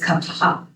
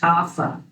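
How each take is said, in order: First: The consonant is said with a breathy puff. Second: The consonant is said without a breathy puff. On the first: The speaker calls it right. "it's an aspirated sound" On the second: The speaker calls it wrong. "You may have heard this pronounced kapha"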